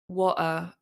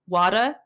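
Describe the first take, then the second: First: The middle T is a crisp T sound. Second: The middle T sounds like a D. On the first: "the way I usually pronounce my T's" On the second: "the way you say it is like um water, ... with a D"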